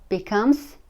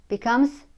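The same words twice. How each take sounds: No difference in how they are said.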